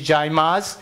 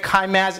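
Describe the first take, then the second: First: The name begins with a J sound. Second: The name begins with a K sound. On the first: The speaker calls it right. "the original pronunciation of C A Y M A Z is Jaimaz" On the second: The speaker calls it wrong. "When you pronounce it at Kaimaz, it means friction man"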